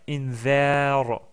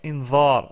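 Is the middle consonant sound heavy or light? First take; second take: light; heavy. First: The middle consonant sounds light and plain. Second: The middle consonant sounds heavy and emphatic. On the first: The speaker calls it right. "On devrait dire invar pour bien prononcer le vel" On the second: The speaker calls it wrong. "on a tendance à dire invar, ce qui est pas correct"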